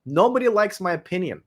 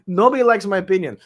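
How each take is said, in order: First: Said in the usual way. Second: Repeated with a laugh. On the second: Real, not acted.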